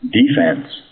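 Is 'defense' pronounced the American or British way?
American. It is pronounced the American way.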